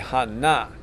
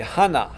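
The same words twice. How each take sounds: First: The stress is on the second syllable. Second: The stress is on the first syllable. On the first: The speaker calls it right. "it's actually hana. The accent is on the second syllable" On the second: The speaker calls it wrong. "would say hana"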